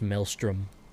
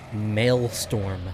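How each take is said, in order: First: The second part sounds like 'strom'. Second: The second part sounds like 'storm'. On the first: The speaker calls it right. "I'm pretty sure it's actually pronounced Maelstrom" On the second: The speaker calls it wrong. "I've always called it Maelstrom ... I just pronounced it Storm"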